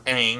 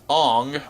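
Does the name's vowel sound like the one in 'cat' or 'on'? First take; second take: cat; on. First: The vowel sounds like the one in 'cat'. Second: The vowel sounds like the one in 'on'. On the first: This is how the name is meant to be said. The speaker calls it right. "or Aang as he's actually supposed to be called" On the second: This is how the movie says the name. The speaker calls it wrong. "the kid who played Ong"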